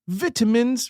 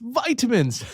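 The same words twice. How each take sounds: First: It is said with a British pronunciation. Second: It is said with an American pronunciation. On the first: This is how the locals say it. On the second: This is how the American visitor said it.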